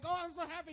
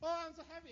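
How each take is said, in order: First: It sounds genuinely and warmly happy. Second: It sounds forced, with hidden envy.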